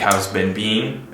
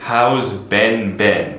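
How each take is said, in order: First: The last word sounds like 'bean'. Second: The last word sounds like 'Ben'. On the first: "you maintained that it was pronounced um, bean" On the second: "미국에서는 B E E N 하고 이분의 이름인 B E N 아, 발음을 똑같이 합니다"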